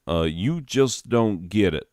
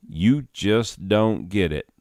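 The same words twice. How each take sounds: First: Corrected take in a light Southern drawl. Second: Slow, mistaken take on the stranger's drawl; wrong drawl. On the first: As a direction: redo "you just don't get it" as the Southern stranger. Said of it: "Southern, there one". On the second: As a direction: deliver "You just don't get it." slowly in the wrong drawl. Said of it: "I was doing different drawl". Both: Acted.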